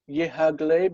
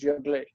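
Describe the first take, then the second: First: An h sound follows the first syllable. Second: No h sound; the syllables merge into one. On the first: "the hey" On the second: "the hey just drops out"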